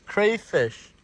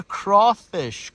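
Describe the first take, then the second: First: "crayfish" with CRAY rhyming with day; "crayfish", higher, first syllable as cray; crayfish pronunciation. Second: "crawfish" drawn out, CRAW rhyming with law; "crawfish", higher, first syllable as craw; crawfish pronunciation. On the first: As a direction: say "crayfish" with a long A. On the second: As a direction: say "crawfish" slowly with an aw vowel. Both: Shown as a demonstration. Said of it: "I don't know how you pronounce it".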